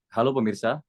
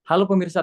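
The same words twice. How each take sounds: First: Anchor greeting in an easy low register; lower register. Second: High, loud anchor greeting; high-pitched greeting. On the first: Coach shows trainee the tone to use, low register. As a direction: keep the greeting down, unforced. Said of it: "coba Mas Muslimin pakai nada bawah". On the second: Coach shows trainee the tone to avoid, high-pitched. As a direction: pitch the greeting up high, too bright for news. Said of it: "Coba jangan pakai nada tinggi". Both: Shown as a demonstration.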